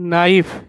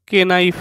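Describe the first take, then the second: First: The word starts with an n sound. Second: The word starts with a k sound. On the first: The speaker calls it right. "উচ্চারণটি হবে নাইফ" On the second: The speaker calls it wrong. "নয়"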